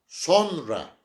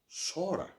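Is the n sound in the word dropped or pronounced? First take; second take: pronounced; dropped. First: The n is pronounced and the o is short. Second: The n is dropped and the o is lengthened. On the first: The speaker calls it wrong. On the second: The speaker calls it right.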